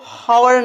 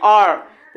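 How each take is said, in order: First: The word starts with an h sound. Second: The word starts with a vowel sound. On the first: The speaker calls it wrong. "इसको हावर नहीं" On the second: The speaker calls it right. "पढ़ते हैं"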